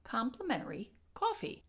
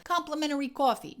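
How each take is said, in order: First: "coffee" with an easy, unforced aw; measured Chicago vowels. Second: Loud, higher, exaggerated Chicago gangster accent; too-strong Chicago accent, punched hard; overdone Al Capone accent. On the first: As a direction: say "coffee" with a light aw, not overdone. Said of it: "We wanna go". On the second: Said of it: "you're gonna go Al Capone". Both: Shown as a demonstration.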